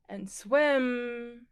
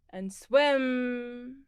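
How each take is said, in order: Both takes have the same delivery.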